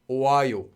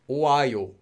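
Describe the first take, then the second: The two takes are said the same way.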